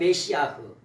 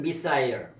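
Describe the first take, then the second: First: It is said 'meh-see-ah' with a final breathy 'h'. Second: It is said 'mih-sigh-uh' with no final breathy sound. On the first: This is the Hebrew form. "히브리어로 말하면" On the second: This is the English form. "영어로 말하면"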